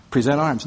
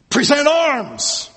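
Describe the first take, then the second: First: Said in the usual way. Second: Barked drill order, high and slow; military command. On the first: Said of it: "No, no, no". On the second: Retold or imitated. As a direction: call it out like a drill sergeant. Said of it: "I was thinking".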